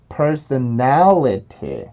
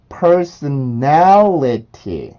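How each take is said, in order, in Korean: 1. t는 분명하게 터지는 t 소리예요. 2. t는 분명하게 터지는 t 소리예요.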